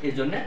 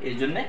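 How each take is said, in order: Both takes have the same delivery.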